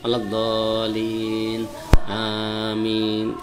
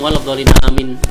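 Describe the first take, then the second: First: There is a short pause before the last word. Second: The two words run together without a pause. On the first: The speaker calls it right. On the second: The speaker calls it wrong.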